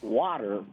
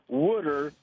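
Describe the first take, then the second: First: It is said the standard way, like water. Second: It is said the Pennsylvania way, like wooder.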